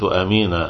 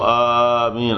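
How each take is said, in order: First: The first vowel is kept short. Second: The first vowel is drawn out long. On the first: "حتى بدون حركتين يعني" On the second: "والمد آمين أفصح"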